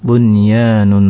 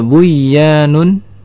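First: The n sound is pronounced clearly before y. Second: The n merges into a doubled y sound. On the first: The speaker calls it right. "dibaca dengan izhar yang disebut izhar mutlak" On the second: The speaker calls it wrong. "seakan-akan di sana ada huruf ya bertasydid"

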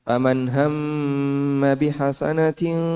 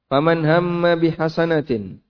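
First: The final nasal blends softly into the next word. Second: The phrase stops after the final word, with no blending. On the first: "Ini kalau dibaca ikhfa ya" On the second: "tapi tidak perlu demikian"

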